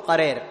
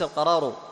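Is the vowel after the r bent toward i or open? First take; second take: bent; open. First: The vowel after the r bends toward i. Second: The vowel after the r stays fully open. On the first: The speaker calls it wrong. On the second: The speaker calls it right.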